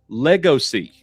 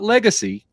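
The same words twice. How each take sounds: First: It begins with the sound 'Lego'. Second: It begins with the plain sound 'leg'. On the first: The speaker calls it right. "Root word Lego, also a play on words" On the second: The speaker calls it wrong. "not legacy"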